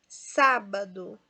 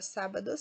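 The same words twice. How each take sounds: First: "Sábado" slow, SÁ stressed. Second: Said in the usual way. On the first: Shown as a demonstration. Teacher tests the word for students, slow "Sábado" stressed on SÁ. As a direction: draw out "Sábado" by syllable, leaning on "sá". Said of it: "Sá é a sílaba mais forte". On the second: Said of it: "agora sábado sim".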